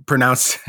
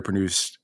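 First: Said in the usual way. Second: Pronounced slipped into pro-NOONST; tongue-slip "pronounced", vowel as in "moon"; mispronounced. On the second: Real, not acted. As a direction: say "pronounced" with OO in the second syllable. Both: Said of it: "pronounced is not a real way".

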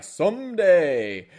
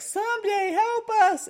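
First: Loud, drawn-out reply; mock heroic answer. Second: Very high squeaky cry; mock plea for help. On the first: Player answering his team's cry for help, loud drawn-out mock call. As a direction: stretch it out big, higher than normal. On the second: Team begging its player to rescue them, high mock plea. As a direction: squeal it like a comic damsel in distress.

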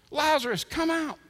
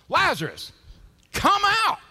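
First: High-pitched mock command, short of a shout; incredulous echo. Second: Full, high-pitched commanding shout; Jesus. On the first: Onlookers echoing Jesus's order to Lazarus, incredulous. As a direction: parrot the command in disbelief. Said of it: "What is he thinking?". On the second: Acted. Calling Lazarus out of the tomb, huge shout. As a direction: bellow it to summon the dead. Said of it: "Then Jesus shouted".

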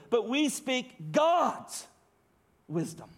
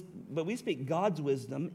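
First: Slow reading with heavy stress on "God's"; emphatic GOD'S. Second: Said in the usual way. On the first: Shown as a demonstration. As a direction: stretch "God's" hard, pause, drop down on "wisdom". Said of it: "you read it this way".

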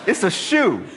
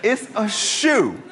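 First: Laughing through the words; a laughing, incredulous punchline. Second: Slow, drawn-out deadpan restatement; a slow, incredulous hammering of "It's a shoe"; slow emphatic repeat. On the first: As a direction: chuckle it out, amused at the absurdity. Laughing at his own story. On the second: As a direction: spell out "It's a shoe" slowly, each word weighed. Repeats the punchline slowly. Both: Real, not acted.

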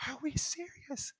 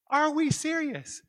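First: High, slow stage whisper; hushed disbelief. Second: High, loud and slow mock outrage; loud disbelief. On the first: Retold or imitated. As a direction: whisper it slowly in mock disbelief. Disbelief as office floods. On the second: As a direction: cry it out slowly, incredulous. Repeats disbelief at flooding.

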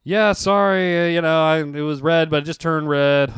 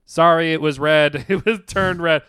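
First: Mildly flustered apology, starting raised; light acted sheepish admission; retold confession. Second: Slightly mocking readout, louder start; lightly imitated court reader; reading statement aloud. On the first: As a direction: own up to the cop, stumbling a little. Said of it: "and I'm like". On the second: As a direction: recite the confession slowly, then lift it. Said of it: "the woman literally read my statement".

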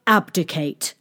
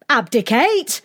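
First: Said in the usual way. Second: High rising question on "Abdicate"; crowd's startled echo. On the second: A narrator's reading. Crowd replies to the king in one voice, astonished "Abdicate?". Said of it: "replied the crowd in one voice".

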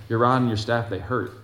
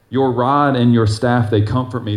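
First: Reluctant complaint. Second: Rod stressed, read with reverence. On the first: Pretend. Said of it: "you're like, "Uh-uh". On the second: Acted. Verse declaimed slowly.

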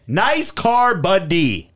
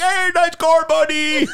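First: Said in the usual way. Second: High, bright mocking quote. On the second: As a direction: squeak it out like a goofy impression. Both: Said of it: "That's all I said".

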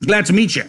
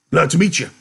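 First: High, loud hearty greeting; wrong character voice. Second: Loud, high big-man greeting; a big man's booming hello, pitched up. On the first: Acted. Reader trying Carlson's greeting in the wrong voice, high and loud. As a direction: greet them loudly in a high, eager voice. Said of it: "wrong voice". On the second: A narrator's reading. Big man greeting newcomers in a loud, raised voice. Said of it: "the big man said".

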